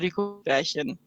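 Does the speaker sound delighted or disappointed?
disappointed. The voice sounds let down and disappointed. The person regrets the choice. "oder es ist so, oh"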